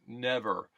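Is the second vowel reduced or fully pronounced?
reduced. The second vowel is reduced to uh. "It could almost be spelled N E V U R, the way I'm saying it"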